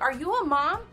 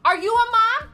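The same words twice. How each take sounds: First: It is said at a calm, normal volume. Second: It is screamed at the top of her lungs.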